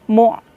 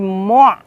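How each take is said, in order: First: A sharp glottal stop follows the vowel. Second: A throaty pharyngeal sound follows the vowel. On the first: The speaker calls it right. "yang tepat pakai hamzah mati di situ" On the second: The speaker calls it wrong. "Awas menjadi mu', pakai ain. Keliru ya"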